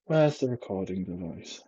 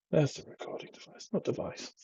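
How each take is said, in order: First: Said in the usual way. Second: Whispered aside, finding the recording device. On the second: Real, not acted. Vlogger with baby asleep on him, whispering.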